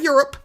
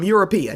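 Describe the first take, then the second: First: The word has its usual two syllables. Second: The word ends with an extra third syllable. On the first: "not Europe" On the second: "as my mother would say"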